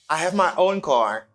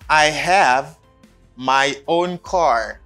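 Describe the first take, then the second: First: The sentence is said quickly and connected. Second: The sentence is said slowly and carefully.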